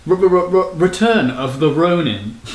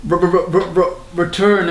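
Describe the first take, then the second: First: Slow drawn-out return of the Ronin in a British accent; British accent hype intro. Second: Stuttered R-r-r into return of the in a British accent; lightly British stuttered intro. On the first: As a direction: stutter the R then stretch return, British accent. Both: Shown as a demonstration. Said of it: "it's actually in a British accent".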